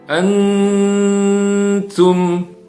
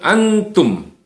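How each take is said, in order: First: The n is blurred, held and nasal. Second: The n is pronounced clearly and briefly. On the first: The speaker calls it right. "Jadi disamarkan, kemudian ditahan dan mendengung" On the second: The speaker calls it wrong. "jangan uh, seolah-olah seperti izhar"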